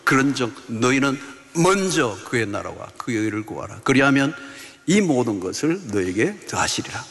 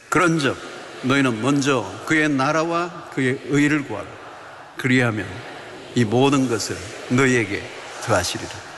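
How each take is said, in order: First: It is read with firm, confessing force. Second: It is read in a flat, dull way.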